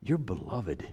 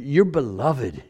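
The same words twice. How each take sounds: First: Hushed and tender; soft, intimate. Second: Said in the usual way. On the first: Real, not acted. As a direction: drop to a near-whisper. Tender aside to the congregation.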